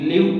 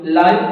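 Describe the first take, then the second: First: The vowel is short, rhyming with 'give'. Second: The vowel is long, rhyming with 'five'. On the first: The word is used as a verb. "വെർബായിട്ടാണ് വരുന്നതെങ്കിൽ നമ്മൾ ഇങ്ങനെ pronounce ചെയ്യും, ലിവ് എന്ന് pronounce ചെയ്യണം" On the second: The word is used as an adjective. "നാമത്തിന്റെ വിശേഷണമായിട്ടാണ് വരുന്നതെങ്കിൽ നമ്മൾ എന്ത് ചെയ്യണം, ലൈവ് എന്ന് പറയണം"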